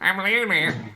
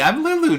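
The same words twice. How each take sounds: First: A strange, dragging, run-down toy voice is used. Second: A small, childlike voice is used. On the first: "The voice was originally going to be freaking weird" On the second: "I'm just gonna do like a little kid impersonation"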